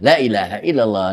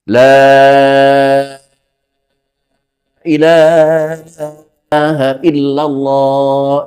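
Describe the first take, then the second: First: The vowel after la is kept short. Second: The vowel after la is held long. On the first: The meaning changes. The speaker calls it wrong. "biasanya ini tidak dibaca panjang ini" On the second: There is no god except Allah. The speaker calls it right. "dengan panjang, dengan menggunakan enam harokat"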